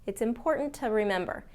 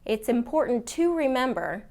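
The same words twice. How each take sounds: First: The word "to" is unstressed and reduced. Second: The word "to" is stressed and fully pronounced. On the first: "the reason this can be reduced is because it's not a stressed word in the sentence" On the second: "if it is a stressed word and it needs to be stressed"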